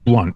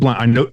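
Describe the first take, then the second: First: The vowel sounds like the one in blunt. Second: The vowel sounds like the one in count. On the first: The speaker calls it right. "Like smoking the weed" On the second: The speaker calls it wrong. "not Blount"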